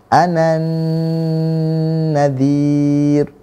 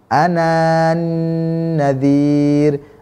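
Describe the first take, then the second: First: The alif is skipped, running straight into the next letter. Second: The alif is pronounced before the next word. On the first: The speaker calls it right. "tidak dibaca, langsung masuk ke huruf berikutnya" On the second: The speaker calls it wrong. "bukan cara bacanya"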